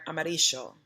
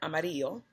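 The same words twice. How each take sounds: First: The double L sounds like sh. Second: The double L sounds like a y.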